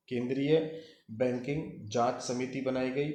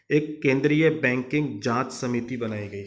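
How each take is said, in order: First: Said in the usual way. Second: Louder, stressing केंद्रीय at the start; emphatic dictation. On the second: Shown as a demonstration. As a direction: announce it firmly so students write it down.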